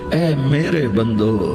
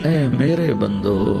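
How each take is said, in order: No difference in how they are said.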